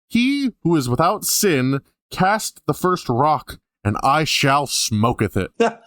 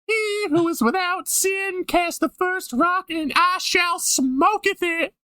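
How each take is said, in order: First: It is read in the speaker's ordinary voice. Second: It is done in a put-on character voice.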